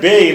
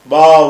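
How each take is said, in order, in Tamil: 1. எழுத்தின் பேர் 'e' உயிரில் முடியுது. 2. எழுத்தின் பேர் 'a' உயிரில் முடியுது. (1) "அந்த எழுத்துக்கு பேர் பே இல்ல" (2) "பா பா உன் அப்படிம்பாங்க"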